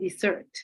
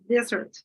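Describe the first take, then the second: First: The stress is on the second syllable. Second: The stress is on the first syllable. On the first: It is used as a verb. "when it's working as a verb, you put it in the second syllable" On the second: It is used as a noun. "In the noun, you put it in the first syllable"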